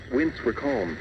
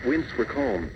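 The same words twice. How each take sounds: The two takes are said the same way.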